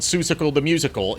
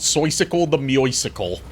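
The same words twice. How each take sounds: First: The first word is said with an oo vowel. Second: The first word is said with an oi vowel. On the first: The speaker calls it wrong. "should technically not be called" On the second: The speaker calls it right. "It should be called"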